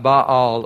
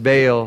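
First: Baal in two drawn-out syllables, bah-AHL; original pronunciation. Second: Baal as one syllable, rhyming with pale; anglicized pronunciation. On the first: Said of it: "or as we pronounce it". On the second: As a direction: say Baal the English way, like bale. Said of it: "as we pronounce it". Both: Shown as a demonstration.

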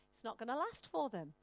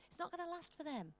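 First: Said in the usual way. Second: Not lifted higher, said softer; stress on not. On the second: Shown as a demonstration. Preacher assuring the congregation, stressing not. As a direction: hit not, higher and hushed. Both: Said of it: "The Lord brings revelation".

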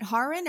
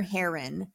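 First: Harin said "HAR-in", like "hard"; first-syllable "ah". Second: Harin said "HAIR-in", like "hair"; first-syllable "air". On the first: Co-host unsure of the drummer's name, [name] as "HAR-in". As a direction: say Harin with an open "ah" first vowel. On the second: Co-host offering the other option, [name] as "HAIR-in". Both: Shown as a demonstration. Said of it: "mispronounce his name".

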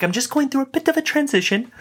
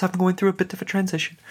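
First: High, posh-leaning English gentleman voice, hammed up; bad English accent. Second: Mock English gentleman sending his regrets, raised pitch; a light, casual English accent, brushing it off. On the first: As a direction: imitate a bad English accent, airy and casual. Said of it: "That's a terrible English accent". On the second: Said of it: "some English gentleman just sending his regrets".

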